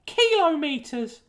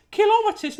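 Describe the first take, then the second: First: "kilometres" high and drawn out, each syllable spelled out slowly; "wrong" kilometres. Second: "kilometres" said quickly in a high voice, as the approved pronunciation; "correct" kilometres. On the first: Letter writer mocks the rejected pronunciation of "kilometres", slow, high, drawn out. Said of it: "not kilometres". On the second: Letter writer gives the approved pronunciation of "kilometres", high and compact. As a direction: say "kilometres" compactly, high-pitched, syllables run together. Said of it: "it was pronounced correctly as kilometres". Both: Acted.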